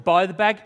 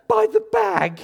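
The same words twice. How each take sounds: First: Loud rising question on "bag"; questioning echo. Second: Very high, loud squeal; panicked wife imitation. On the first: Retold or imitated. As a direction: repeat it back, lifting "bag" into a question. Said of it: "I went". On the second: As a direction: shriek it like a frantic wife, imitated. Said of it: "because she went".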